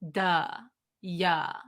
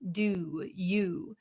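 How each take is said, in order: First: The vowels are a relaxed uh with dropped jaw. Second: The vowels are a full, lip-rounded oo sound. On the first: "So it becomes just a drop. Our jaw just drops down" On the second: "the oo sound, we need a lot of um, stress around our lips"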